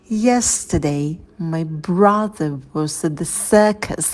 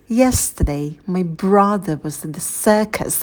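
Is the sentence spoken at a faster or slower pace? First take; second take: slower; faster. First: The sentence is spoken at a slow pace. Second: The sentence is spoken at a normal, faster pace.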